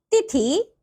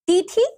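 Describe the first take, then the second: First: तिथि with a short first vowel; correct तिथि. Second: तिथि with a long first vowel; mispronounced तिथि. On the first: Teacher giving children the right form, correctly pronounced. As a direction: say तिथि carefully as "ti-thi". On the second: Teacher showing children a wrong form, mispronounced. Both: Shown as a demonstration. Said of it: "नीचे कुछ अशुद्ध शब्द".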